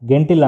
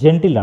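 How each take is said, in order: First: It begins with a hard g sound. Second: It begins with a soft j sound. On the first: The speaker calls it wrong. "కానీ ఇక్కడ గెంటిల్ అనం" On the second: The speaker calls it right. "జెంటిల్ అంటాం"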